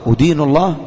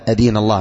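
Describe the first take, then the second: First: The first word begins with a 'u' vowel. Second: The first word begins with an 'a' vowel. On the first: One reproaches or condemns God. The speaker calls it wrong. "ولو قلت بالضم أدين الله خطأ محض" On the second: One follows this faith before God. The speaker calls it right. "أدين الله بالفتح"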